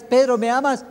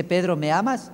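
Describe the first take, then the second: First: The same question asked higher, a touch more insistent; pressing third question. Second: Said in the usual way. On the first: Retold or imitated. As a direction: press Peter gently a third time. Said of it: "le pregunta la tercera vez". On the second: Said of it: "y le dice".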